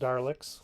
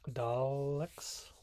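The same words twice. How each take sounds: First: It is said with an added R sound. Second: It is said without an R sound. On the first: The speaker calls it wrong. "not Daleks" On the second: The speaker calls it right. "you do not put an R in Daleks"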